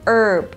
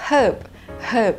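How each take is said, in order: First: The word starts without an h sound. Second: The word starts with an h sound. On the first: "ไม่มีตัว h นะคะเป็น herb ... เพราะเป็นแบบ American" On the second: "มีเสียงตัว H"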